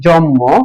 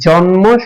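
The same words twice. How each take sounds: First: The n becomes m, giving a doubled m. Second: The n and m are both pronounced separately. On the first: The speaker calls it wrong. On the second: The speaker calls it right.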